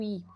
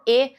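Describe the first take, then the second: First: The letter is named the English way, like 'ee'. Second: The letter is named the Portuguese way, like 'eh'. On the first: "no inglês é o I" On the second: "essa aqui que a gente pronuncia como E"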